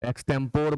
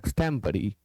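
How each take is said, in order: First: The word ends on a consonant sound. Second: The word ends on a final 'ee' vowel. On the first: The speaker calls it wrong. "बहुत लोग पढ़ते हैं, गलत उच्चारण" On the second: The speaker calls it right. "आपको पढ़ना है"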